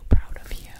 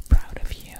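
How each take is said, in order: Both takes have the same delivery.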